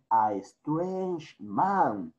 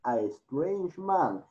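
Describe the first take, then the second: First: Slow, weighted. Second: Said in the usual way. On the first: Shown as a demonstration. Teacher reading the story slows to stress the stranger. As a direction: stretch out strange man slowly.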